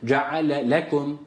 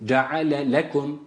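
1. İkinci l hafif ayrı bir vurguyla söylenir. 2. İkinci l hafif ayrı bir vurguyla söylenir.

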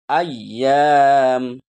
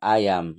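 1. Konsonan di tengah ditekan dan ditahan lama. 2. Konsonan di tengah singkat dan tidak ditahan. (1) "Ditekan, ditahan" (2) "Bukan ayam"

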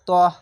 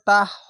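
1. স্বরটি গোলাকার, 'o'-এর মতো ভারী ধ্বনি। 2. স্বরটি স্পষ্ট, খোলা 'a' ধ্বনি। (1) "মোটা অক্ষরে আকার উচ্চারণ হবে না" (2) "তাহ হবে না"

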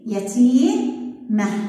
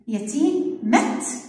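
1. تنتهي الكلمة بصوت "آه" ناعم. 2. تنتهي الكلمة بصوت "ت" قوي. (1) "من الأصح يتيمة" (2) "مش حلو لفظها"

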